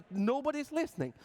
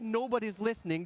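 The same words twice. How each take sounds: First: Higher-pitched mock lament; exasperated complaint. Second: Said in the usual way. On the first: Band complaining that users go unheard, exasperated. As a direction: cry it out like you're being ignored.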